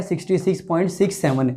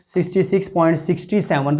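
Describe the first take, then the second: First: "सिक्सटी सिक्स point सिक्स सेवन" with "सिक्स" and "सेवन" read as separate digits, softer; correct reading. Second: "सिक्सटी सिक्स point सिक्सटी सेवन" with the digits after "point" read as "सिक्सटी सेवन"; wrong reading. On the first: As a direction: model the right way, each decimal digit said separately and softly. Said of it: "तो सही क्या है". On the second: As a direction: show the mistake, decimal part read as one two-digit number. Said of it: "तो ये गलत है". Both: Shown as a demonstration.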